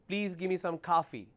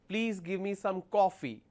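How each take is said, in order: First: It is said in an American accent. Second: It is said in a British accent. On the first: "American way of saying it" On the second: "British way of saying it"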